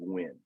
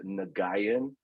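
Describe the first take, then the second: First: The name is said as one short syllable. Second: The name is spelled out in three syllables. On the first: The speaker calls it right. "the proper way to say it is actually Win" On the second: The speaker calls it wrong. "I actually said Nagayan, like really, just really spelt it out"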